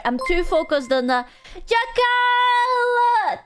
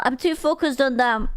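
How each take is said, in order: First: Sung line. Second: Said in the usual way. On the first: Acted. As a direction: sing it slow and high, drawn out. Sings a line to a chatter.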